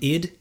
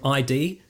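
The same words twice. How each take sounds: First: It is said as one short word. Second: It is spelled out as two letters. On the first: The speaker calls it right. "instead of saying he's from ID" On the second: The speaker calls it wrong. "they say he's from ID"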